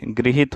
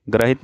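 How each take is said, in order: First: गृहित begun with "gri"; correct gri syllable. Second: ग्रहित begun with "gra"; gra for gri. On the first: Teacher correcting the word, गृहित with gri. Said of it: "गृहित होता है". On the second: Teacher showing the mistake, ग्रहित with gra. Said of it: "ग्रहित नहीं होता है". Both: Shown as a demonstration.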